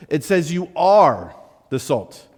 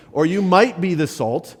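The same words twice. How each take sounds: First: "are" held slow and rising; stress on are. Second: "might" leaned on, doubtful; stress on might. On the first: Preacher insists to congregation, "are" stressed. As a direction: slowly stress "are" as settled fact. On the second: Preacher contrasts wrong reading with scripture, "might" stressed. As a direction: stress "might" as the false version. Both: Shown as a demonstration. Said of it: "It doesn't say that you will".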